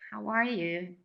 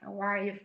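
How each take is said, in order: First: It is asked with sincere interest. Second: It is asked as a rote formula.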